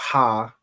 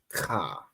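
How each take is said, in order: First: It starts with a soft breathy h sound. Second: It starts with a raspy throat friction sound. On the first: The speaker calls it wrong. "and it's not ha" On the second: The speaker calls it right. "it'd be like ka"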